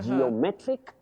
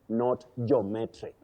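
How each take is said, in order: First: It begins with two syllables, 'jee-oh'. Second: It begins with one syllable, 'joh'. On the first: The speaker calls it right. "we have that line geo" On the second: The speaker calls it wrong. "not jo"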